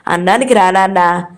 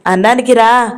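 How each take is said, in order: First: Put-on gently coaxing the sulking boy; pleading. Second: Mother calling across the house to dinner. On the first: Mother coaxing her sulking son to eat, gently pleading. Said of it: "అమర వచ్చి బ్రతిమలాడింది". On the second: Mother calls her son in to eat, mildly raised. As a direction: call the boy to eat, a little raised. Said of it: "గంట తర్వాత పిలిచింది". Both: A narrator's reading.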